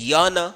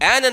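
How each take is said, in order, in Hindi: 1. यह स्वर से पहले 'y' ग्लाइड से शुरू होता है। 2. यह सादे 'e' स्वर से शुरू होता है।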